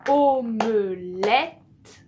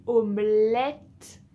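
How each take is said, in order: First: "omelette" broken into o-me-lette, loud and very slow; syllable by syllable. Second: Said in the usual way. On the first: Shown as a demonstration. Teacher shows a learner the ending of "omelette", syllable by syllable. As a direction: stretch "omelette" loudly, landing on the final -ette. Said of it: "c'est à la fin".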